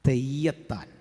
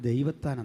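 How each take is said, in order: First: The name starts with a 'th' sound. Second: The name starts with a 'd' sound. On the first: The owner could not pronounce the name properly. The speaker calls it wrong. "പേര് പറഞ്ഞു തെയ്യത്താൻ" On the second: This is the name's proper form. The speaker calls it right. "ശരിക്കുള്ള പേര് ദൈവത്താൻ എന്നാണ്"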